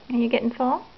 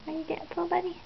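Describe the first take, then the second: First: Said in the usual way. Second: Higher and softer, tender. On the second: Real, not acted. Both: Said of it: "asked again softer and higher".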